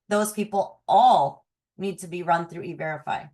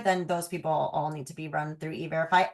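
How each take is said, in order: First: The word all is strongly emphasized. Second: No single word carries strong emphasis.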